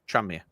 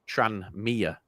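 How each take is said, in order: First: The n and m sounds blend together. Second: A small gap separates the two parts. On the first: The speaker calls it right. "the the N and the M kind of blur into one" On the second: The speaker calls it wrong. "Whereas you're saying Tranmere. It's like there's a ga-"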